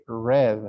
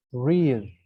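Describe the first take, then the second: First: "read" said as red with a short e; past tense read. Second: "read" said as reed with a long ee; present tense read. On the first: Teacher to class, past tense read. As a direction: clip "read" to sound like red. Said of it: "When it's in past tense". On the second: Teacher to class, present tense read. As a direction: stretch the vowel of "read" into reed. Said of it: "you pronounce it". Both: Shown as a demonstration.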